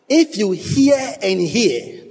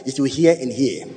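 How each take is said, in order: First: "hear and hear" drawn out slow and high; preacher hammering "hear and hear" slowly, pitched up; emphatic repetition. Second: Said in the usual way. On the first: Shown as a demonstration. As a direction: stretch each "hear" in "hear and hear". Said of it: "is the most emphatic form of the language". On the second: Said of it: "Now, it is repeated twice".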